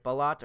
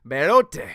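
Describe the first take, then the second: First: BELOT said "buh-LOT"; unsure pronunciation. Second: BELOTE as loud "bell-OH-tay"; playful pronunciation guess. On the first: Trying a viewer's last name, unsure, BELOT as "buh-LOT". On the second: Trying a viewer's surname, playful, BELOTE as "bell-OH-tay". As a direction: sound the final E of BELOTE as "tay". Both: Shown as a demonstration. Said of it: "pronouncing your last name right".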